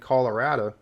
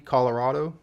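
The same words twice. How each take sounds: First: The vowels sound more anglicized. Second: The vowels sound closer to Spanish. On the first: "country folk out there saying Colorado" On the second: "the pronunciation closer to Spanish is the correct one"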